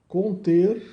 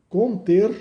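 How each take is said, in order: The two takes are said the same way.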